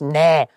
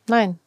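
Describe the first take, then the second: First: The no is said curtly and bluntly. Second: The no is said warmly, with a smile.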